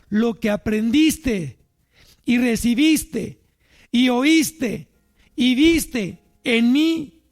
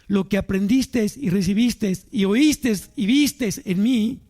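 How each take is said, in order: First: It is said a bit more slowly. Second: It is said at normal speed.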